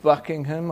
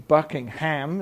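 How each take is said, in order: First: The name is said the British way. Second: The name is said the American way.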